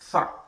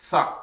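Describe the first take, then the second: First: It starts with a th sound, tongue out. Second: It starts with a th sound, tongue out.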